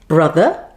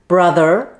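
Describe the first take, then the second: First: The word ends in a schwa with no r. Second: The word ends with a clear r sound. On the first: "in British English, we do not say that E R at the end. Instead, we say the schwa sound" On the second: "with a general American accent, you pronounce the E R at the end like this"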